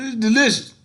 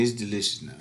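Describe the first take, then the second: First: "delicious" said higher and punched hard; stress on delicious. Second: Said in the usual way. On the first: Shown as a demonstration. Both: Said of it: "No, no, no".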